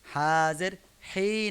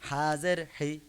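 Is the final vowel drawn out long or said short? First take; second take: long; short. First: The final vowel is drawn out long. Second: The final vowel is said short and quick. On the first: The speaker calls it wrong. "হা জের হি না" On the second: The speaker calls it right. "কারণ হরকতের উচ্চারণ দ্রুত তাড়াতাড়ি করতে হয়"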